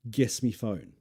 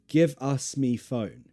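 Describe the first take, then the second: First: Give us is squeezed into one short syllable. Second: Give us is said slowly as two full words. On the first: "Very, very lazy way to say give us me phone" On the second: "we don't often say it as slow as that"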